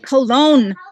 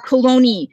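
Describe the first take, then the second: First: The word ends in a consonant sound. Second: The word ends in a vowel sound. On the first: This is how it looks when read in writing. "when I read it online, it looks like Cologne" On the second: This is how the locals say it. "They pronounce it Coloni down there"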